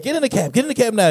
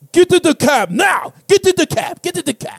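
First: Lightly put-on Middle Eastern accent, urging. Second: Put-on high, urgent African-accented cab driver. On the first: Cab driver coaxing a passenger in, light Middle Eastern accent. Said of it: "That's my Middle Eastern voice". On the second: Cab driver urging a lone passenger in, high African accent. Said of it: "I'm doing an African voice".

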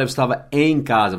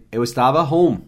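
First: "em" destacado em "eu estava em casa"; ênfase no EM. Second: "home" destacado no fim, em queda; ênfase em HOME. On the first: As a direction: marque bem a palavra "em", como forma a evitar. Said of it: "Você não fala". (destaque didático no "em") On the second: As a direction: troque para o inglês e marque bem "home". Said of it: "você diz". (destaque didático em "home") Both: Shown as a demonstration.

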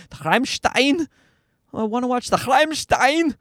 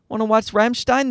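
First: Put-on toddler's high German-accented question; higher voice, heavy German accent on Rammstein. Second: Put-on slightly higher kid-like question; a hint of an eager little boy; toddler asking. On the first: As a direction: imitate a kid nailing a German accent, rolled throaty R. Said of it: "he can nail the German accent". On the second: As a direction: lightly imitate a toddler's request. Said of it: "so Sam calls that the spikes".

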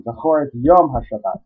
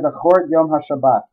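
First: Yom leaned on and held; stress on Yom. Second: Said in the usual way. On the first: Shown as a demonstration. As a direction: give the word Yom the weight. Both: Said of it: "Here they emphasize the word Yom".

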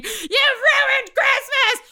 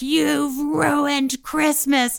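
First: Very high, drawn-out shriek; all-out imitated scream, far above usual pitch; mother screaming. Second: Higher, very drawn-out accusation; imitated mom's long mild wail; freaking-out mother. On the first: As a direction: screech the accusation slowly like a hysterical mom. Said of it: "My mom screaming". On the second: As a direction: stretch the blame out slowly, short of a scream. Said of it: "my mom is freaking out and screaming".

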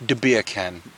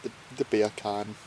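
First: Understated Jamaican accent demo. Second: Soft, badly faked Jamaican accent; hesitant, half-hearted try at Jamaican; failed Jamaican accent. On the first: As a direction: coach it with a light Jamaican lilt. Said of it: "say in a Jamaican accent". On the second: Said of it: "I can't do it". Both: Shown as a demonstration.

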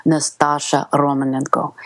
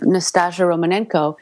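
First: Russian-accented character name; Russian pronunciation of the name. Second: Said in the usual way. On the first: Shown as a demonstration. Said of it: "key to my whole Russian accent".

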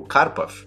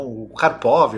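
First: Karpov with the stress on KAR; "Karpov" with a reduced last vowel; original pronunciation. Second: Karpov with the stress on POV; "Karpov" with a strong, open last syllable; Brazilian pronunciation. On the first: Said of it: "às vezes eu falo os nomes". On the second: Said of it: "do jeito mais brasileiro". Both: Shown as a demonstration.

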